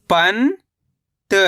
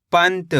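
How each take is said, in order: First: पंत as long rising "pan", pause, "ta"; split syllables. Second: Said in the usual way. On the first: Shown as a demonstration. Teacher breaking down पंत for learners, split syllables. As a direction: stretch पंत into two separate syllables. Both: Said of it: "कैसे पढ़ेंगे?".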